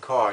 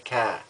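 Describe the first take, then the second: First: It is said in a plain, non-Boston accent. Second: It is said in a Boston accent.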